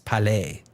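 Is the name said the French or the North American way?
French. It is said the French way, final S silent. "In French, you don't pronounce that S"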